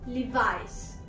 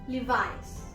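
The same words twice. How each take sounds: No difference in how they are said.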